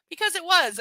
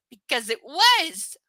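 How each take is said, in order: First: Loud, high, firm answer; emphatic confirmation. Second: Loud, slow, high mock outburst; hammed-up exclamation. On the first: A narrator's reading. Boyfriend confirming to her, loud and emphatic. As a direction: confirm it forcefully without drawing it out. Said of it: "I confirm". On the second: Reader blurting the obvious answer, hammed-up exclamation. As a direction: belt out "was" long and loud.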